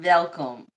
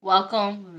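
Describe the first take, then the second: First: "welcome" said "velcome"; accented "welcome" with a V. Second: Said in the usual way. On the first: Shown as a demonstration. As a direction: start "welcome" with a V sound. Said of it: "we say V's". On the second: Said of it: "Anything with W".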